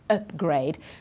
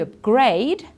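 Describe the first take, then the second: First: The stress is on the first syllable. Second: The stress is on the last syllable. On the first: It is used as a noun. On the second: It is used as a verb.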